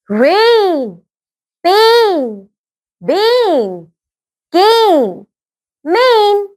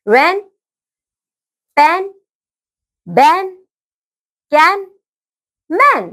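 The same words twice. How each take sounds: First: "रेन, पेन, बेन, केन, मेन" with a stretched ay; long-vowel word drill on "रेन, पेन, बेन, केन, मेन", each drawn out; long A sounds. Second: "रेन, पेन, बैन, कैन, मैन" with short open A, as in ran; short-vowel word drill on "रेन, पेन, बैन, कैन, मैन", pausing after each; short A sounds. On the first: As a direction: say "रेन, पेन, बेन, केन, मेन" as rain, pain, bane, cane, main, held long. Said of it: "उसके बाद long sound". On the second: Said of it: "पहले मैं short sound वाले पढ़ूंगी". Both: Shown as a demonstration.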